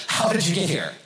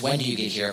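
First: "How" hit higher, puzzled question; stress on How. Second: Said in the usual way. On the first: Shown as a demonstration. Crowd asking Jesus about his crossing, stress on "How". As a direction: punch the word "How" in amazement. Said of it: "Part of their question is probably". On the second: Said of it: "part of their question is not just".

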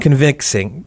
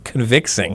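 First: Said in the usual way. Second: Put-on Southern-Australian accent. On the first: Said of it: "We're gonna be talking in our accents today". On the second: Host joking to co-host on podcast, mock Southern Australian accent. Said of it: "that was a mix of Southern and Australian".

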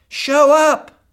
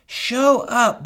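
First: High, loud exhortation; shouted call. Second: Said in the usual way. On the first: Real, not acted. Preacher calling husbands to show up, loud.

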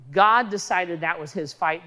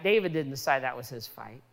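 First: God hit firmly at the start; stress on God. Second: David didn't said lower and quicker; low dismissive contrast. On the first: Preacher crediting the fight to God, stress on God. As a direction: lead hard on God, then carry on evenly. Contrasts God's choice with David's. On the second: Preacher denying it was David's choice, lowered contrast. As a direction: drop the pitch and toss off David didn't decide. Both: Shown as a demonstration.

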